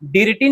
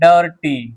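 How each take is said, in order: First: The first vowel sounds like 'ih'. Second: The first vowel sounds like 'uh'. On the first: The speaker calls it wrong. "डिरटी नहीं पढ़ेंगे इसको" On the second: The speaker calls it right. "आई का उच्चारण आ हो जाता है"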